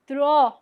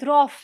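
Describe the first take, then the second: First: The vowel is a plain long o sound. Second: The vowel is followed by an f-like sound. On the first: The speaker calls it right. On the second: The speaker calls it wrong. "not draw"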